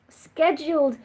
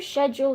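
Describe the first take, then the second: First: The word is said with the non-British pronunciation. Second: The word is said with the British pronunciation. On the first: "feels like it makes more sense" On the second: "the British way and the original way to say it"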